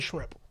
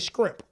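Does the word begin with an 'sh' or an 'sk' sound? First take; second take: sh; sk. First: The word begins with an 'sh' sound. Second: The word begins with an 'sk' sound. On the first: This is the way the speaker does not say it. "I don't say shrimp" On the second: This is how the speaker normally says it. "I say scrimp"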